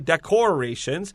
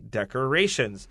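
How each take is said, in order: First: The second syllable has a full 'or' sound. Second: The second syllable has a reduced 'er' sound. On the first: The speaker calls it wrong. "We don't say decorations" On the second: The speaker calls it right. "we say decorations"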